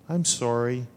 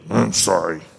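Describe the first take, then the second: First: The apology sounds sincere and heartfelt. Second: The apology sounds grudging and insincere.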